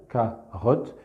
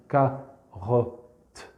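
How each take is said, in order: First: "carotte" split into two spoken syllables, ca-rotte; oral syllables. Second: "carotte" drawn out in three written syllables, ca-ro-tte. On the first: Teacher showing oral syllables to colleagues, two beats. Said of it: "j'ai travaillé en syllabes orales". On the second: Teacher showing written syllables to colleagues, three slow beats. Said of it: "vous travaillez ... sur les syllabes écrites". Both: Shown as a demonstration.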